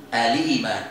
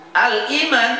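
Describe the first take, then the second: First: Low "Al-iman" as a-lii-man, hamzah dropped; joined recitation. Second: Said in the usual way. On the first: Shown as a demonstration. Teacher answers how to read it, low and joined. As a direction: link l into long ii in "Al-iman". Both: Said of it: "Berarti baca gimana?".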